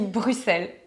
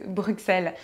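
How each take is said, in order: First: The name is said the Belgian way. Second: The name is said the French way. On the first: The speaker is a real Belgian. The speaker calls it right. "Non, on dit Bruxelles" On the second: The speaker is not a real Belgian. The speaker calls it wrong. "on sait tout de suite que c'est pas des vrais Belges"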